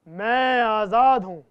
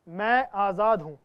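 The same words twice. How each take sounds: First: It is said louder still, most forcefully. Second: It is said softly and calmly.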